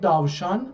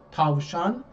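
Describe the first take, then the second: First: The word begins with a voiced D sound. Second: The word begins with a voiceless T sound. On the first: This is how it is said in Azerbaijan. "ما در آذربایجان داوشان میگیم" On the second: This is how it is said in Turkey. "در ترکیه تاوشان فکر میکنم میگن، با همین ت میگن"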